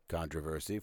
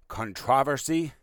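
First: The word is said with a plain, ordinary inflection. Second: The word is said with a playful, odd inflection. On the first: It is meant seriously. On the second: It is meant as a joke.

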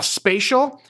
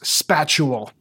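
First: The word ends with a 'shul' sound. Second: The word ends with a 'chew-al' sound, like spatula. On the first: The speaker calls it right. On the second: The speaker calls it wrong.

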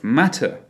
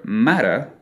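First: The middle consonant is a clear t. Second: The middle consonant sounds like a d. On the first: "instead of matter" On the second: "or matter instead of"

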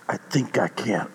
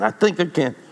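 First: It is said slowly. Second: It is said fast.

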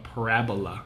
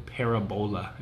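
First: The word is said in the ordinary way. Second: The word is said in a fancy, affected way.

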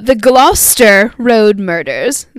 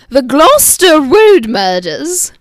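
First: It is said in an American accent. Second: It is said in a British accent. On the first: "I don't know how to say that" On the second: "Let me try it in a British accent"

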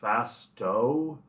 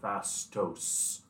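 First: The name ends on a vowel, no final s. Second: The name ends with a final s sound. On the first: The speaker calls it wrong. "I kept hearing Fasto" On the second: The speaker calls it right. "with an S at the end"

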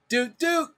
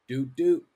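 First: It is said with more energy and enthusiasm. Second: It is said flatly, with no enthusiasm.

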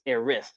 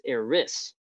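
First: The name ends with a th sound. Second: The name ends with an s sound. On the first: This is the original version used in the East. "with a TH in the East" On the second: This is the version used in the West. "with an IS"

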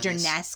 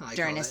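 First: It is said to end like Inverness. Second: It is said to rhyme with furnace. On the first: "Durness because, like, Inverness" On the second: "Durness, like furnace"

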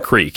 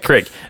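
First: The vowel is long, like in 'creek'. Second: The vowel is short, like in 'crick'. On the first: The speaker calls it right. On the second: The speaker calls it wrong.

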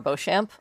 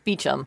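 First: The name is said the French-style way, Bo-shamp. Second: The name is said the English way, Beecham. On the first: "We actually just say Beauchamp" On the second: "The southern way of saying it is the English way of saying it"

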